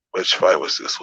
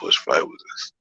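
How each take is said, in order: First: Said in the usual way. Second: Soft self-directed whisper; whispered to himself. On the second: Real, not acted. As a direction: lower and voiceless, muttered aside.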